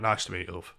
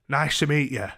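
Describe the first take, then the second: First: Said in the usual way. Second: Higher, louder hello; imitated woman's greeting. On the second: Woman greeting him as door opens, imitated. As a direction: voice her greeting pitched up and louder.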